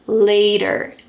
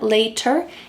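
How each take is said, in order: First: The middle consonant is a soft, quick D sound. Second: The middle consonant is a crisp, clear T sound. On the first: The speaker calls it right. "it's going to sound like later" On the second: The speaker calls it wrong. "the word later doesn't sound like ter"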